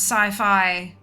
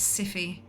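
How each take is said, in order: First: The name is said like 'sigh-fye'. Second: The name is said like 'siffy'. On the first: The speaker calls it right. "it's supposed to be pronounced sci-fi" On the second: The speaker calls it wrong. "It's Siffy"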